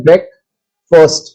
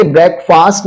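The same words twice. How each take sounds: First: "ब्रेकफास्ट" said as brek-fust; weak short vowel in the second half of "ब्रेकफास्ट"; reduced "fust" ending. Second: "ब्रेकफास्ट" with a long open a in the second half; full "fast" ending. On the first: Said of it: "इसे बोलते हैं ब्रेकफास्ट". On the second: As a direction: say "ब्रेकफास्ट" as break plus fast. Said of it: "ब्रेकफास्ट नहीं बोलते". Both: Shown as a demonstration.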